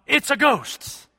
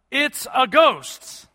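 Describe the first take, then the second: First: High, slow frightened holler; hollered "It's a ghost". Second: Slow, raised cry of "It's a ghost"; mock cry of fear. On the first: Acted. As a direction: cry out "It's a ghost" as if seeing a spirit. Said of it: "they hollered out". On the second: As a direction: draw out the ghost cry like scared fishermen. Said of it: "they cried out".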